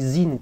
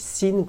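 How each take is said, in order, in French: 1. Le mot commence par un son Z, avec vibration. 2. Le mot commence par un son S sifflant. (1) "comme s'il y avait un Z" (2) "comme s'il y avait un S"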